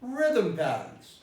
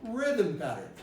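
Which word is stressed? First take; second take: rhythm; rhythm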